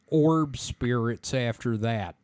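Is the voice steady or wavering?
steady. The voice is steady and plain.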